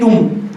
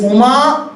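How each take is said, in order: First: The name ends on the m consonant. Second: The name ends with a final a vowel. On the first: The speaker calls it wrong. "you cannot make it Um" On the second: The speaker calls it right. "It has to be A only there"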